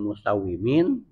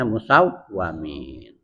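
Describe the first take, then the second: First: The vowel after the 'w' is 'i'. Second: The vowel after the 'w' is 'a'. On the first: "dikasrokan wawu dibacanya musawimin" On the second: "bisa juga dengan fathahnya musawwamin"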